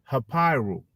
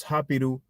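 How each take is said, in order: First: "Hapiru" with the middle i said like "eye"; long-I pronunciation. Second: Said in the usual way. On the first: Shown as a demonstration. Host shows how some people pronounce it, long-I "Hapiru". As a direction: say "Hapiru" as ha-PIE-roo. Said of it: "because of the I". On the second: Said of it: "they pronounce Hapiru".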